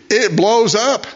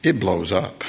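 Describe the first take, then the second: First: Higher, punchy repeat of the blow-up; exclaimed punchline. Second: Said in the usual way. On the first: Real, not acted. Preacher to congregation, exclaiming the pressure cooker blowing up. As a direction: pop the words like the bomb going off.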